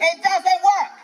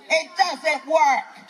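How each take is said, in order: First: Pushed louder, hammering the word work; louder insistence. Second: Slow, each word laid down deliberately; slow insistence. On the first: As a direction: drive it home with force. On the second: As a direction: spell it out slowly for them. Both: Real, not acted. Repeating the point to crowd.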